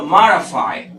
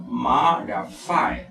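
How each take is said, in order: First: Said in the usual way. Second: Marafy drawn out slowly in separate syllables; slow, lower breakdown of marafy. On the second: Shown as a demonstration. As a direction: spell out marafy by sound, slowly. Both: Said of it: "mayor fuerza de voz está en la primera sílaba".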